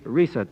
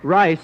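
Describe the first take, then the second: First: The first vowel sounds like 'ee'. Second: The first vowel sounds like 'eye'. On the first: The speaker calls it right. "I mean Risa" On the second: The speaker calls it wrong. "I mean Rizzy"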